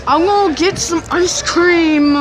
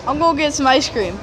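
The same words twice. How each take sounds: First: Slow, raised, insistent; louder insistent repeat. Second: Said in the usual way. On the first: Real, not acted. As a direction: insist on the ice cream, drawn out.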